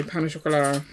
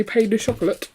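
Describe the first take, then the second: First: Pain au chocolat said as pan-oh-shock-o-LA; French reading of pain au chocolat; French-style pain au chocolat. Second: Pain de chocolate said as PAYN duh CHOCOLATE; English reading of pain de chocolate; anglicised pain de chocolate. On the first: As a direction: end chocolat on open la. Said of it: "Or do you say pain au chocolat?". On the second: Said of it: "Do you say pain de chocolate?". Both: Shown as a demonstration.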